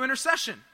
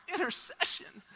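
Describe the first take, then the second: First: Said in the usual way. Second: High, soft incredulous question; puzzled, high-pitched repeat; baffled inner reaction. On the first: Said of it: "He goes, "So, we'd like you". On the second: Retold or imitated. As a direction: echo the word in mock disbelief. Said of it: "in my mind, I'm going".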